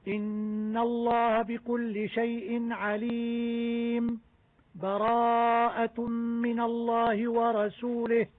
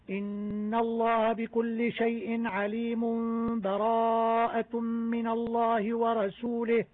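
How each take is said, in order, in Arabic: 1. سكتة صامتة قصيرة تفصل بين الآيتين. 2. تتصل الآيتان دون سكتة. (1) "السكت" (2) "وصل الجميع هكذا"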